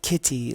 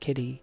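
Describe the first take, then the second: First: The middle consonant is a crisp T sound. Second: The middle consonant is a soft D sound. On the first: The speaker calls it wrong. "you wouldn't say it kitty like that because that's got a T in it" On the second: The speaker calls it right. "general American English, that dialect, we say it with a D sound"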